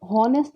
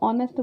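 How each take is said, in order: First: The word begins with an audible h sound. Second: The word begins directly with a vowel sound. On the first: The speaker calls it wrong. "यहाँ पर हॉनेस्ट नहीं बोलते हैं" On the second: The speaker calls it right. "इसको ऑनेस्ट बोलते हैं"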